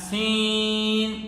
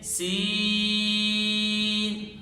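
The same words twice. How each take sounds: First: The vowel is pushed through the nose. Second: The vowel is a clear oral 'ee'. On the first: The speaker calls it wrong. "नाक में आवाज़ चली जाती है" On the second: The speaker calls it right. "मारूफ अदा करेंगे"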